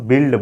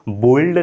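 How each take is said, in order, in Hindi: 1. स्वर 'ih' जैसा सुनाई देता है। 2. स्वर 'oh' जैसा सुनाई देता है। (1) "इसे हम बिल्ड बोलेंगे" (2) "बोल्ड नहीं बोलेंगे"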